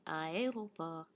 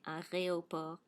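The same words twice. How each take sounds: First: The R and E sounds are in normal order. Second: The R and E sounds are swapped. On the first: The speaker calls it right. "Say aéroport" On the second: The speaker calls it wrong. "little French kids will often transpose the R and the E"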